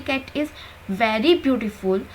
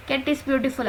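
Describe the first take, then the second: First: Very slowed and leaned on, falling; stress on very. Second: Said in the usual way. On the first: Shown as a demonstration. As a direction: draw out very beautiful to stress it. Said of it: "तो वही जोर दे रहा है इस word को". (very पर ज़ोर देकर धीरे बोलें) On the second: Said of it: "अगर मैं सिर्फ इतना बोल दूँ".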